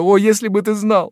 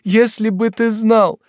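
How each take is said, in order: First: High loud cry, stressing о; first take, peaking on о; tearful exclamation. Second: Higher, slower, leaning on знал; second take, stretching знал; tearful repeat. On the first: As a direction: wail "о, если бы ты знал" high and loud. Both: Acted. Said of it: "заливаясь слезами, воскликнула".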